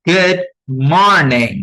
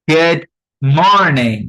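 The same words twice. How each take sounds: No difference in how they are said.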